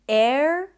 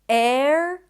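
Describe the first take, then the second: First: The middle vowel is a neutral schwa sound. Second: The same.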